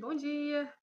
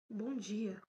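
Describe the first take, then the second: First: It is said in a warm, friendly way. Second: It is said in a sullen, grumpy way.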